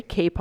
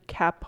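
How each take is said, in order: First: "cape" with a long a, as in "tape"; corrected to cape. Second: "cap" with the short a of "cat"; misread as cap. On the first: Teacher correcting a misreading, "cape" with a long a. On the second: Teacher misreading the monologue, "cap" with a short a. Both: Real, not acted. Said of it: "sorry, cape on lined".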